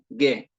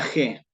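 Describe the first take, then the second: First: The g is a hard sound, as in guiso. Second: The g is a throaty sound, as in Spanish. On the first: This is the classical Latin pronunciation. The speaker calls it right. "estoy hablando de la pronunciación clásica" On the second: This is the Spanish pronunciation, not Latin. The speaker calls it wrong. "pero nunca ge. Gente, derecho de gentes, eso es en español"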